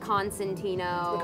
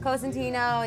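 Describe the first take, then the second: First: The name begins with the sound 'Con'. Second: The name begins with the sound 'Co'. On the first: This is how others say the name. The speaker calls it wrong. "How do people pronounce it in the States? Like Constantino" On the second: This is how the name is really said. The speaker calls it right. "I was correcting people on how to pronounce it"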